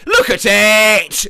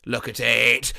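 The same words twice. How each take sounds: First: Drawn-out, loud boast; slow and loud, show it off; loud proud look. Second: Said in the usual way. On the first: Acted. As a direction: hype up the lasagna, slow and loud. Showing off homemade lasagna.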